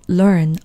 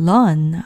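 First: The word is said with an r coloring. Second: The word is said without an r coloring. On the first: "원래 소리는 learn이지만" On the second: "무시하고 그냥 learn 하셔도 괜찮습니다"

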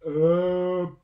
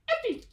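First: It is said very slowly. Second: It is said very fast.

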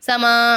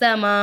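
First: The word ends on an open, drawn-out vowel. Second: The word ends abruptly with an audible glottal stop. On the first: The speaker calls it wrong. "சமா அப்படின்னு பாடக்கூடாது" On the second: The speaker calls it right. "அப்படின்னு நம்ம நிப்பாட்டணும்"

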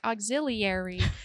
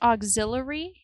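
First: The word is said as it is written. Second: The word is said in its usual spoken form. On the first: The speaker calls it wrong. "I see the word in my brain and I'm like" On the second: The speaker calls it right. "But it's pronounced auxiliary"

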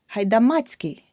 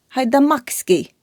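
First: A 'ts' sound comes before the ending. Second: A 'k' sound comes before the ending. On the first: The speaker calls it right. "Рука, ручка у руці" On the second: The speaker calls it wrong. "Неправильно"

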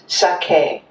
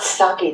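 First: Both syllables get equal stress. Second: One syllable is stressed more than the other. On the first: The speaker calls it right. "every syllable is pronounced the same emphasis" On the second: The speaker calls it wrong. "it's not sake that we drink"

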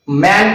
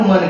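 First: The vowel is full and open, like 'man'. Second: The vowel is short and reduced, like 'mun'. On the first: The speaker calls it wrong. "मॅन करायचा नाही" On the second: The speaker calls it right. "मग त्याचा उच्चार कसा करायचा तर मन करायचा"

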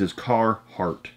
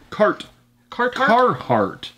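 First: The name is said with a single t sound. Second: The name is said with a doubled t sound. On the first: The speaker calls it right. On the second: The speaker calls it wrong. "I never can say that right. There is no two T's"

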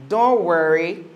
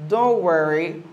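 Both takes have the same delivery.

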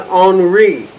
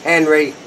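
First: The name starts without an H sound. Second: The name starts with an H sound. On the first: The speaker calls it wrong. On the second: The speaker calls it right.

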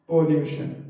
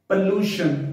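First: The first vowel is a rounded 'o' sound. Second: The first vowel is an unrounded 'uh' sound. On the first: The speaker calls it wrong. "पॉल्यूशन नहीं" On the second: The speaker calls it right. "ओ की जगह हमने ए का sound देना है"

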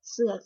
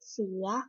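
First: The syllable is said with a low tone. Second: The syllable is said with a rising tone. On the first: "คือวรรณยุกต์เสียงเอก" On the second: "วรรณยุกต์เสียงจัตวา"

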